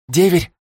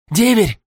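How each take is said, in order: First: Higher, louder rising call; urgent call. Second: Much higher falling shout; desperate shout. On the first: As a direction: call out to wake him. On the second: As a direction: yell the name desperately. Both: Acted. Shaking him awake.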